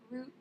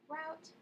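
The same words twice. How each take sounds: First: Root said to rhyme with boot; root, long oo like in boot. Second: Route said to rhyme with out; route as in rout, trying it out. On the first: Her own usual way of saying the word, root like boot. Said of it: "root is usually the way I pronounce it". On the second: Trying both ways of saying a word, route like out. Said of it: "don't really know how to pronounce it". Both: Shown as a demonstration.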